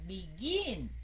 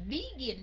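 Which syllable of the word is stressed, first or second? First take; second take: second; first. First: The stress is on the second syllable. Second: The stress is on the first syllable. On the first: The speaker calls it right. "Thế còn mình nói là begin" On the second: The speaker calls it wrong. "Mình đâu có nói là begin đâu"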